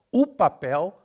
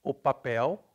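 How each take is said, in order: First: O said as a loud, high "u"; Brazilian pronunciation. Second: O said as a true o before papel; as written. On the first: Teacher showing O becomes U, loud "u papel". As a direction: punch o as "oo" before papel. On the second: Teacher showing the spelling, O as o. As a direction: keep the O round as o, not u. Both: Shown as a demonstration. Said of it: "O becomes U".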